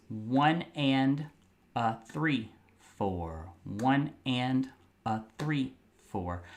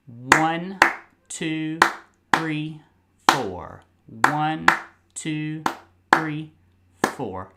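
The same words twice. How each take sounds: First: Counting one and a three, four in rhythm; teacher counts the syncopated rhythm; rhythmic counting. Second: Steady one, two, three, four in even time; teacher counts the steady beat; counting the beat. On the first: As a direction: count it out in time, skipping two. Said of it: "So it sounds like this". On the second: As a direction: count each beat evenly. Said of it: "it'll sound like this". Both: Shown as a demonstration.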